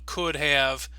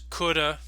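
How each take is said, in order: First: Both words are said in full. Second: 'Have' is reduced to a weak uh sound.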